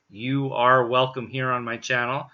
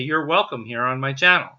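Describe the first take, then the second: First: "You are" is said as two full words. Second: "You are" is contracted into one syllable. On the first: "I'm not going to say you are welcome here on my channel" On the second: "I'm going to say you're welcome here on my channel"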